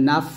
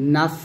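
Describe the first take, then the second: Both takes have the same delivery.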